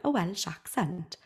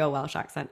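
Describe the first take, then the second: First: Slow, softer Welsh lilt; attempted Welsh accent. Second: Said in the usual way. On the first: Shown as a demonstration. Testing the accent after admitting defeat, attempted Welsh accent. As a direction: try it slowly in a Welsh accent. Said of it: "I can't do a Welsh accent". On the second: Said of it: "okay, I can't do a Welsh accent".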